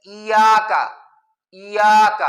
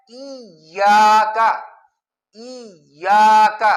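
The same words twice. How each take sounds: First: ایاک as iyaak with a single light y; no shadda. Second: ایاک said slowly with the double y held; correct iyyaka. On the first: Teacher demonstrates the common mistake, single y not doubled. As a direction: drop the doubling: ایاک said i-yaak. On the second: Teacher models the correct word for students, slow and doubled. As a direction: stretch ایاک as iy-yaak with a clear doubled y. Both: Shown as a demonstration. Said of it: "بغیر شد کے پڑھنا ٹھیک نہیں ہے".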